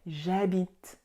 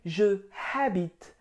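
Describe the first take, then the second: First: Je loses its vowel and joins habite. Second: Je is a separate syllable before habite. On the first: The speaker calls it right. "You need to say" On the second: The speaker calls it wrong. "the mistake that I see a lot, it's people saying"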